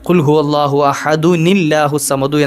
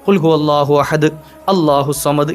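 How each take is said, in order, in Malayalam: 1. ahad, allahu വിനോട് ചേർത്ത 'un' ശബ്ദം വഴി ചേരുന്നു. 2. ahad നും allahu വിനും ഇടയിൽ ഒരു നിർത്തലുണ്ട്. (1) "കൂട്ടി ഓതുമ്പോൾ ഓതേണ്ടത്" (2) "ഇങ്ങനെ നിർത്തി നിർത്തി ഓതാം"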